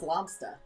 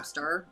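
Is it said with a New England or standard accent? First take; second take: New England; standard. First: It is said in a New England accent. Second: It is said in a plain standard accent.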